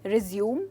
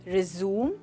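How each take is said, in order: The two takes are said the same way.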